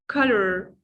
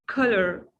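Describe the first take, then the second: The two takes are said the same way.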